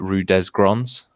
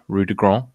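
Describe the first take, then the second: First: It is said with a local anglicized pronunciation. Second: It is said with standard French pronunciation. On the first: This is how local people say it. The speaker calls it wrong. "on Guernsey people call it" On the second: This is how the name is written. The speaker calls it right. "there's a road near my house called like"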